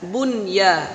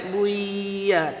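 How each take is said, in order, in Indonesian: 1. Bunyi n terdengar jelas sebelum ya. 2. Bunyi n hilang dan menyatu dengan ya. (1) "cara bacanya juga dibaca jelas" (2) "jangan sampai buya"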